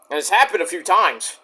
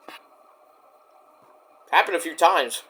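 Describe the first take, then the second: First: Said in the usual way. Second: Slow, softer, each word weighted; slow emphatic repeat. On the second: Real, not acted. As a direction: let it sink in, slowly.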